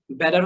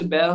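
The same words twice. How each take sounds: First: American "বেটার" with tapped d-like t and sounded r; American accent. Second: British accent. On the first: Teacher showing learners the accent difference, American pronunciation of "বেটার". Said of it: "American". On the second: Teacher showing learners the accent difference, British pronunciation of "বেয়ার". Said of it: "British". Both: Shown as a demonstration.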